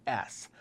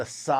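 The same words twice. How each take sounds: First: Said in the usual way. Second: S sounded out as "suh". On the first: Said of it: "or an S". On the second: Shown as a demonstration. Memory coach teaching the sound for zero, S said "suh". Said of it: "the S sound".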